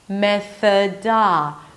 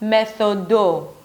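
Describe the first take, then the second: First: The vowel after the D is an 'ah' sound. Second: The vowel after the D is an 'oh' sound. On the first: The speaker calls it right. "Both vowels here are not an O sound" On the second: The speaker calls it wrong. "It's not methodo"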